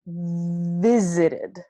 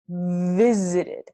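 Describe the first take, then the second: First: It starts with teeth on lip, a V. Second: The same.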